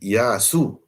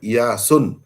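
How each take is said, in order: First: The word ends on a plain u vowel. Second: The word ends with an added n sound. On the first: The speaker calls it right. "Tapi Iyasu, baris satu" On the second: The speaker calls it wrong. "bukan Iyasun"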